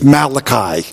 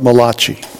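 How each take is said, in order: First: It is said with a plain English pronunciation. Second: It is said with an Italian-sounding pronunciation. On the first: "it's Malachi" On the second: "the Italian prophet Malachi"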